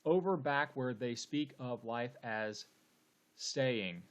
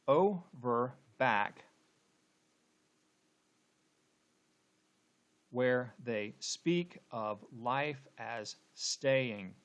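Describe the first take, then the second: First: Measured, even reading of the verse; steady beat-counting delivery of "Over back where they speak"; syllable-counting reading. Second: Very slow, broken into separate syllables, starting on a stressed "Over"; drawn-out scansion, marking each stress; scanning the meter. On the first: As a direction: read the line syllable by syllable, counting beats. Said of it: "let's count the number of syllables". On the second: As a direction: chop "Over back where they speak" into weighted beats with long gaps. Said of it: "let's go ahead and, and scan". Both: Shown as a demonstration.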